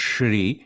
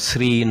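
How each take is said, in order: First: The word begins with an sh sound. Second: The word begins with a plain s sound. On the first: The speaker calls it right. "with the Sha sound" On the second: The speaker calls it wrong. "but it's not really Sri"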